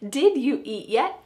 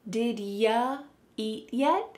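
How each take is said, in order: First: Every word is said in full. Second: You is reduced to ya after did. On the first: "This means, did you eat yet?" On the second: "Here the word you is being reduced to ya"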